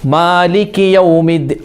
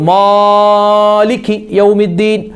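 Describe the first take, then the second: First: The vowels are held at a moderate length. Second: The vowels are stretched out overly long. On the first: The speaker calls it right. "ഒരു മധ്യമായ" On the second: The speaker calls it wrong. "ചില ആളുകൾ നീട്ടും"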